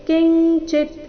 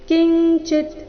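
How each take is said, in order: Both takes have the same delivery.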